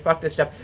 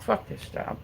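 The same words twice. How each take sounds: First: Said in the usual way. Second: Whispered, fed-up curse; whispered Fuck this job; under-breath curse. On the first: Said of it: "Like, straight up". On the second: Retold or imitated. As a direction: hiss it quietly to yourself. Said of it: "I was just like".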